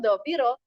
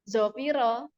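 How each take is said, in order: First: The word begins with an emphatic d sound. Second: The word begins with a z sound. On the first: The speaker calls it right. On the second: The speaker calls it wrong.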